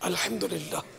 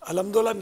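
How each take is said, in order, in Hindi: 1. यह शब्द धीरे-धीरे बोला गया है और हर आवाज़ साफ़ है। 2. यह शब्द जल्दी-जल्दी बोला गया है और इसकी आवाज़ें कटी हुई हैं। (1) "थोड़ा इत्मीनान से बोलने की आदत डालेंगे" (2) "अल्हम्दुलिल्लाह नहीं है"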